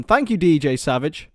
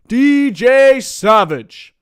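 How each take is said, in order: First: Said in the usual way. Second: Slow, booming ring announcer call of the name D J Savage; drawn-out hype call. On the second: Pretend. Streamer shouting out a viewer, booming drawn-out announcer call. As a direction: stretch out D J Savage like a ring announcer, louder and higher.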